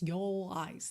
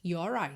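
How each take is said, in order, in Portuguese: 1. Nenhum som de R liga as duas palavras. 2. Um som de R liga as duas palavras. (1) "senão your eyes, your eyes. Não, não dá muita ligação" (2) "a gente enrola o R porque ele acaba funcionando como ligação entre as palavras"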